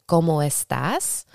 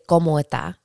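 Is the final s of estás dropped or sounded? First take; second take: sounded; dropped. First: The final s is clearly pronounced. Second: The final s is dropped. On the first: "if you want to say como estás" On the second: "they say como está. They kind of like take out S's"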